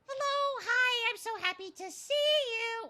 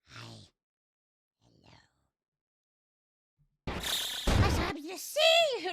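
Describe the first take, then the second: First: It is said in an imitation of Toad's voice. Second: It is said in a plain, ordinary voice.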